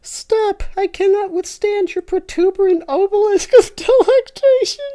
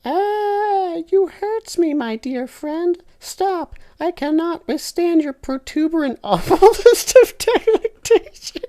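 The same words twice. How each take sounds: First: Loud, high pleading falsetto; high falsetto scream. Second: High, loud falsetto wail; falsetto scream. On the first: Tinky Winky rereading his scream, loud falsetto. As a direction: wail it even shriller. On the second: Tinky Winky screaming at his friend, loud falsetto. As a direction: shriek it in a mock high voice. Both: Acted. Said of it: "Tinky Winky screams".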